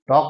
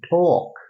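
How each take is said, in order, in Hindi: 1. पहले व्यंजन में हवा का झोंका नहीं है। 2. पहले व्यंजन में हवा का झोंका है। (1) "टॉक नहीं" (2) "इसको बोलेंगे टॉक"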